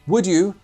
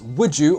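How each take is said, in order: First: The d and y are said separately. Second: The d and y merge into a j sound.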